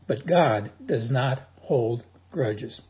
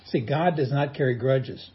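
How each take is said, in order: First: "God does not hold grudges" slow, each word weighed; slow it right down on "not hold grudges"; stressed restatement. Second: Said in the usual way. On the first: Shown as a demonstration.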